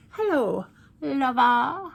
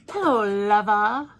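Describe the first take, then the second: First: Louder, higher, breaking into a laugh; laughing purr. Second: Sultry loud greeting to the lipstick; breathy vintage purr. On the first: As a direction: purr it again and crack up. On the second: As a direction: purr it like a screen siren. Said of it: "which is called Lover". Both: Pretend.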